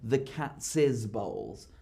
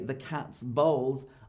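First: Cats has an extra syllable added. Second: Cats has no extra syllable added. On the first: The speaker calls it wrong. "I don't say the cat's bowls. That's not correct English" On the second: The speaker calls it right. "I still say the cat's bowls"

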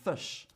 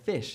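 First: It is said in a New Zealand accent. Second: It is said in an Australian accent. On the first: "fush instead of fish" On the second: "is what I would say in my dialect"

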